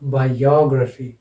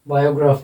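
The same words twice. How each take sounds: First: The stress falls on the 'o' syllable. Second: The stress does not fall on the 'o' syllable. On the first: The speaker calls it right. "यहाँ पर लगेगा और इसका उच्चारण होगा biography" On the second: The speaker calls it wrong. "Biography नहीं है"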